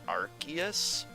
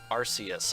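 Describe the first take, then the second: First: It is said with the canon English-game pronunciation. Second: It is said with the Japanese-style pronunciation. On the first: "that pronunciation is canon, by the way, because of the R K S system" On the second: "the Japanese katakana indicates that it would be pronounced Arceus"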